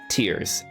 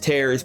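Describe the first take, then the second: First: The vowel rhymes with the word ear. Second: The vowel rhymes with the word air. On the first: Someone is crying. The speaker calls it right. "but it's actually tears" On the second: Something is being ripped apart. The speaker calls it wrong. "maybe it's tears because the kingdom is kind of in pieces"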